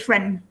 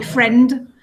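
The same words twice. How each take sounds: First: The final d sound is left out. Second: The final d sound is clearly pronounced. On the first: "in a normal sentence, you probably just say friend" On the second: "you can say friend, that's fine"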